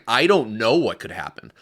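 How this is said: It is said in an urgent, serious tone.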